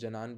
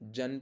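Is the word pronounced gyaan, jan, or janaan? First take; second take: janaan; jan. First: It is said as janaan, with added vowel. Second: It is said as jan, a short cluster. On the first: "जनान पढ़ते हैं" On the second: "तो हम उसको जन पढ़ते हैं"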